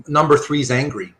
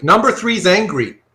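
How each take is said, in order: First: Said in the usual way. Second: "Number three's angry" said louder, NUMBER pushed up; repeated with emphasis. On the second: Shown as a demonstration. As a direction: lean on "Number" and land it.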